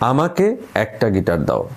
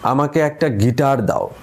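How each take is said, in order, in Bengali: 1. জোরটা প্রথম শব্দে। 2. জোরটা তৃতীয় শব্দে। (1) "এখন আমি যদি প্রথমটায় জোর দিই" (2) "এখন যদি তৃতীয় শব্দটায় জোর দিই"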